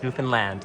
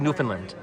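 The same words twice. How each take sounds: First: The ending sounds like the end of Disneyland. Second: The ending does not sound like Disneyland's. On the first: The speaker calls it right. "It's Newfoundland, like Disneyland" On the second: The speaker calls it wrong. "I was saying Newfoundland"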